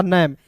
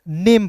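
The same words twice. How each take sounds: First: नैम with an open vowel, "nam" as in "ham"; नैम with short "ae" sound; pronunciation without final e. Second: नेम with a long "ay" vowel, "naym"; नेम as one syllable, E silent; final-e pronunciation. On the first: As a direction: say नैम to rhyme with "jam". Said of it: "अंतिम में ई नहीं रहता तो". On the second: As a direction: say नेम to rhyme with "game". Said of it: "को पढ़ेंगे". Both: Shown as a demonstration.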